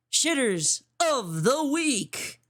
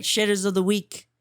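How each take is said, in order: First: Slow, stretched announcer read of the title; announcer drawl. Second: Said in the usual way. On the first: Acted. Host to stream viewers, slow announcer drawl. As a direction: draw it out like a show host.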